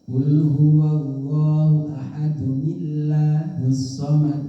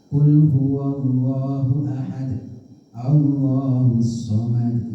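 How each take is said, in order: First: Ahad runs straight into the next word. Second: It stops after ahad before the next word.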